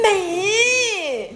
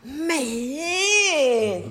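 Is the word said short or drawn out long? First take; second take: short; drawn out. First: The word is said short and plain. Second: The word is drawn out long and warmly.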